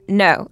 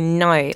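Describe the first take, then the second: First: It is said in an American accent. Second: It is said in an exaggerated Australian accent.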